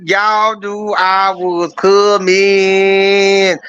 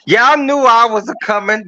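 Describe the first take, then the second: First: Drawn out slow. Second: Said in the usual way. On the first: Acted. Host's entrance, drawn-out repeat.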